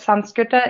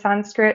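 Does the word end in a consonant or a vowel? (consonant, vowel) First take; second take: vowel; consonant. First: The word ends with an added vowel sound. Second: The word ends on a consonant sound. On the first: This is the traditional pronunciation. "Sanskrita is the traditional way of pronunciating" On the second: This is the English pronunciation. "Sanskrit is the English way of pronunciating it"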